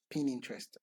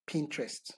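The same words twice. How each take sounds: First: "Pin Interest" split into two separate words; trying the pronunciation. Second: Pinterest run together as one word; trying the pronunciation. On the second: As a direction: say "Pinterest" in two syllable-blended beats, PIN-trest. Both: Shown as a demonstration. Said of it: "I hope I got the pronunciation right".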